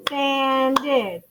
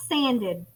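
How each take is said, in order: First: "Sanded" stretched into two beats, san, ded; clapped-out syllables. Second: Said in the usual way. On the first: Shown as a demonstration. Teacher claps it for class, "Sanded" in two separate beats. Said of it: "sanded has two syllables". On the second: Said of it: "What about sa-, sanded?".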